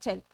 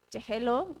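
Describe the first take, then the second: First: The word is said in a shortened form. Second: The word is said in its full form. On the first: This is how people say it in the street. "decían chel" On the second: This is the form taught in school. "en lugar de decir"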